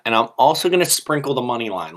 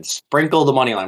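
First: Said in the usual way. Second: "Sprinkle the money line" hammered home as the key advice; emphasized. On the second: Shown as a demonstration. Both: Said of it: "Let me emphasize that".

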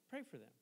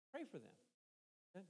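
First: Said in the usual way. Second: Much softer and slowed right down; soft, slow plea. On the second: Acted. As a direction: let it sink in, slow and soft. Pleading with the congregation to pray.

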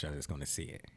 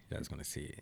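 First: Said in the usual way. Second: Breathy whisper of "see it", much softer. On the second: Shown as a demonstration. Host teasing listeners with a secret, hushed whisper. Teasing closing line repeated.

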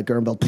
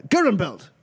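First: Said in the usual way. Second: Calling out a champion. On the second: Acted. Fight master calls the champion up.

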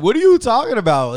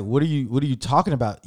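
First: Louder, higher, incredulous; exasperated outburst. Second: Said in the usual way. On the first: Retold or imitated. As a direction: blurt it out in disbelief at the cashier. Exasperated retort to cashier, laughing.

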